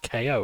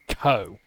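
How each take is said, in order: First: The name is spelled out as two letters. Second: The name is said as one short syllable. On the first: The speaker calls it wrong. "It's K O as in knockout, right? No" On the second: The speaker calls it right. "it's Ko"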